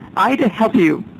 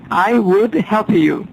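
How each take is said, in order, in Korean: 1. would라는 단어는 줄어들어서 I와 붙여 발음합니다. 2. would라는 단어는 완전히 그리고 따로 발음합니다.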